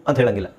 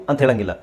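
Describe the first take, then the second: Both takes have the same delivery.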